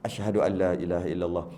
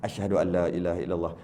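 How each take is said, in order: Both takes have the same delivery.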